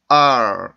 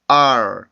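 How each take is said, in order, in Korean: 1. 모음이 말린 r 소리로 미끄러져요. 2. 모음이 말린 r 소리로 미끄러져요.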